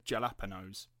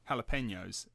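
First: Jalapenos with a hard English j and a plain n; English mispronunciation. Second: Jalapenos with a breathy h at the start; proper pronunciation. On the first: Retold or imitated. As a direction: say jalapenos as spelt in English, j-first. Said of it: "and they say jalapenos". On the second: Shown as a demonstration. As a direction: say jalapenos the Spanish way, opening on an h. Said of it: "refuse to say it as it ought to be".

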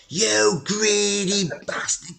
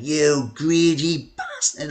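First: Much higher, slow mock rant; hammed-up furious chairman losing it on the phone; retold furious outburst. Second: Slow, raised mock yell of an angry chairman; hammed-up slow furious insult; retold angry shout. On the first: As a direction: stretch the insult out high and slow, mock rage. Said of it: "he just went mental". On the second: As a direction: drag out the insult like a furious boss on the phone. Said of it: "he started shouting down the phone".

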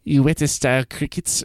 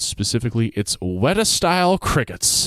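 First: Put-on Weta said WIT-uh in a half-hearted New Zealand accent; attempted New Zealand accent. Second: Weta with the vowel of wet, WET-uh. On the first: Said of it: "I can't do it". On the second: Shown as a demonstration. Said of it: "it's pronounced Weta".

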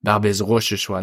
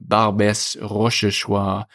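First: Barbès Rochechouart said faster, lighter; Barbès Rochechouart at normal pace; quicker French name. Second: Barbès Rochechouart said slowly with French r; Barbès Rochechouart, drawn out French style; French pronunciation. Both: Shown as a demonstration. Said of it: "the one I mentioned in the video was".

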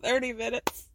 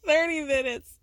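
First: Said in the usual way. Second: Thirty minutes laughed out, amused and disbelieving; laughing disbelief. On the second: Real, not acted. Repeating Janelle's line, laughing in disbelief. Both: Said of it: "I love it".

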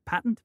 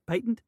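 First: Patent? said PAY-tnt, unsure; patent, long a. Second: Patent? said PAT-nt, unsure; patent, short a. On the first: Host unsure of the word, tries PAY-tnt. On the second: Host tries the other version, PAT-nt. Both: Shown as a demonstration. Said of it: "I don't know".

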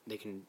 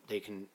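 No difference in how they are said.

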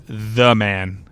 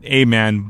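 First: THE drawn out slowly before "man"; stress on THE. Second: The article A set apart before "man"; stress on A. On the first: Podcaster telling listeners his big goal, slow emphatic THE. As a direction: stretch THE to mean the one and only. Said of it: "Not a man". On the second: Podcaster clarifying his goal to listeners, stress on A. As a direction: lean on A as merely one of many. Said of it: "but the man". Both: Shown as a demonstration.

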